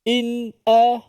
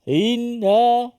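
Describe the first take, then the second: First: A clear, held glottal stop comes before the a. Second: The glottal stop before the a is weak. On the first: The speaker calls it right. "pastikan dia keluar betul-betul hamzah" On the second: The speaker calls it wrong.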